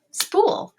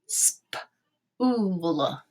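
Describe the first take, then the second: First: Said in the usual way. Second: "Spool" split into sp, oo, l; sounded out. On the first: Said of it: "and say it". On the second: Shown as a demonstration. Teacher tapping out a word for students, "Spool" in pieces. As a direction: tap out "Spool" in long separate sounds. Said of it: "tap this word out and say it".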